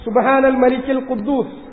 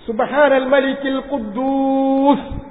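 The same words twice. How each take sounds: First: The phrase is said at normal length. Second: The phrase is drawn out and lengthened.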